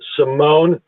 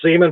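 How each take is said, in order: First: It is said like 'see-MOAN', stress at the end. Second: It is said like the words 'sea man'. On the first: "I pronounce it Simone to make it sound like suave and debonair" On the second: "my last name is Seaman"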